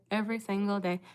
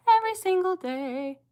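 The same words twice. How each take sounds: First: Said in the usual way. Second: Whiny fake sob, pitched much higher; mock crying. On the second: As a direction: wail it like a hammed-up cry. Mock wail about daily hate.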